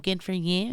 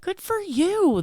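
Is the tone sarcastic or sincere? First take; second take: sarcastic; sincere. First: It sounds sarcastic and mocking. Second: It sounds sincere and pleased. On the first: The speaker resents the other's luck. "that's always so sarcastic" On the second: The speaker is genuinely happy for the other. "That's amazing"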